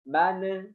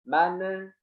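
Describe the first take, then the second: No difference in how they are said.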